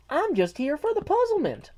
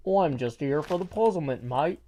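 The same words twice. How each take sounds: First: Put-on very high-pitched quote in own accent; non-British chat voice. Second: Attempted British accent for a chat quote. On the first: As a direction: read the chat message way up high. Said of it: "Although she's got a British voice". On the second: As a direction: have a go at sounding British. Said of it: "she's got a British voice".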